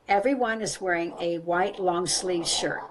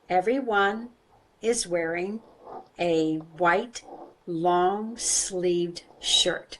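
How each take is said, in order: First: The sentence is said at normal speed. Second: The sentence is said slowly.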